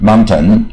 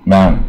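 First: It is said in a British way, t full. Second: It is said with the t even lighter. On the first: "英国人就念" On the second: "有的念得更轻"

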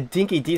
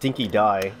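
First: The last syllable ends in an 'ee' sound. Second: The last syllable ends in an 'eye' sound.

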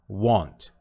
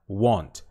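Both takes have the same delivery.

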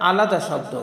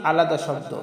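The two takes are said the same way.

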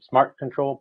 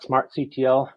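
First: The ending is said as the word control. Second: The ending is spelled out letter by letter.

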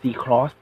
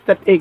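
First: The X is read as the word cross. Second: The X is read as a letter name. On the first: The speaker calls it right. "เพราะจะออกเสียงเฉพาะทางนะ" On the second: The speaker calls it wrong. "ไม่ใช่"

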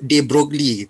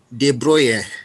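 First: The name is pronounced in an anglicized way. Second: The name is pronounced in a French way. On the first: "Saya selalu sebut de Broglie" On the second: "dia cakap dia French kan"

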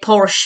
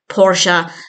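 First: It is said as one syllable, ending in sh. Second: It is said as two syllables, with a final vowel. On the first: This is the habitual way the speaker has always said it. The speaker calls it wrong. "saying Porsche for however many years" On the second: This is the way the ads pronounce it. The speaker calls it right. "to Porsche"

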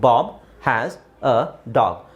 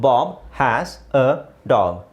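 First: There is a pause between each word. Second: The same.

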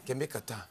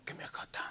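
First: It is said in a normal voice. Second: It is said in a whisper.

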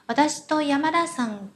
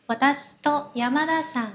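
First: The particle 'to' is said lightly, almost unheard. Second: The same.

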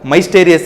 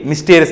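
First: The first vowel is an 'ai' sound. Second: The first vowel is a short 'i' sound. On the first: The speaker calls it wrong. "ಮೈಸ್ಟೇರಿಯಸ್ ಅಂತ ಹೇಳಲ್ಲ" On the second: The speaker calls it right. "ಇಲ್ಲಿ ಮಿಸ್ಟೇರಿಯಸ್ ಅಂತ ಕರಿತೀವಿ"

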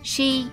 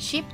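First: The vowel is long and drawn out. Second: The vowel is short and clipped. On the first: The speaker calls it right. "mà đó là sheep ... âm y dài" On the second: The speaker calls it wrong. "không phải là sheep nha"

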